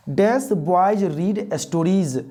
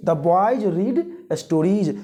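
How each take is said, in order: First: Very slow, drawn-out read with a blank; very slow quiz reading. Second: Slow answer, a touch quicker than the blank. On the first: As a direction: stretch each word for students. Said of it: "क्या होगा?". (बहुत धीमे से खाली जगह वाला वाक्य) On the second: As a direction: read the answer slowly. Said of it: "बोलिए". (धीमे से उत्तर) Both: Shown as a demonstration.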